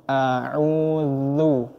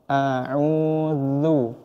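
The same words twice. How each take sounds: The two takes are said the same way.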